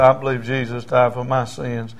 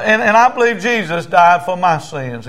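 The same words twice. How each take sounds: First: Understated imitation of a crying man; tearful repetition. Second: Raised, louder declaration of faith; feed the prayer line with force; high, emphatic creed for repeating; leading a prayer. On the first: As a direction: repeat the belief back humbly. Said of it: "He's crying". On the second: Retold or imitated. Preacher leads prayer for repeating.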